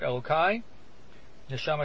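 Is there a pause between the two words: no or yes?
yes. A short pause separates the two words. My God, the soul you gave me. The speaker calls it right. "Put a comma between Elokai and Neshama"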